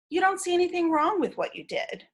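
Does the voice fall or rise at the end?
fall. The pitch stays flat and falls at the end. It confirms understanding without judgment. The speaker calls it right. "Stay stay with a flat tone"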